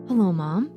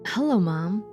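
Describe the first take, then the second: First: It is said in a put-on voice. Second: It is said in a natural voice.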